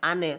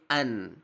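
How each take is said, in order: First: The n bounces into an added vowel. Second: The n ends cleanly with no vowel. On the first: The speaker calls it wrong. "memantulkan suara nun sukun ... tidak boleh" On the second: The speaker calls it right. "tapi an"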